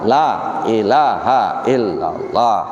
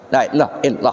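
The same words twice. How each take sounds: First: There is a short pause between phrases. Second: It runs on with no pause between phrases.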